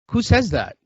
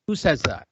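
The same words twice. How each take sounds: First: Who on earth says that, amazed; incredulous. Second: Said in the usual way. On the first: Real, not acted. Incredulous at friend's excuse.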